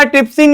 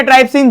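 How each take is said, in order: First: ट्रिप्सिन with first syllable "trip"; short-i pronunciation. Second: ट्राइप्सिन with first syllable rhyming with "tripe"; long-i pronunciation. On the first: Teacher naming first enzyme for students, ट्रिप्सिन said with "trip". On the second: Teacher allowing students either form, ट्राइप्सिन said with "try". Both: Shown as a demonstration. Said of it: "जो भी आप बोलो".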